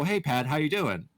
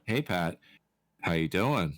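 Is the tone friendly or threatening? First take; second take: friendly; threatening. First: It is said in a casual, friendly tone. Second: It is said in a menacing, threatening tone. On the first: It is an ordinary greeting. "as a normal person" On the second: It is a veiled threat. "if I really wanted to threaten you"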